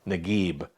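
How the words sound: The name begins with a hard g sound. This is how it is said in Cairo. "in Cairo like a G, a hard G"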